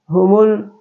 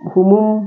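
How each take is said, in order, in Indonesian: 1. Bunyi L diucapkan dengan jelas. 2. Bunyi L melebur menjadi M. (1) "tapi humul" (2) "humul bukan humum"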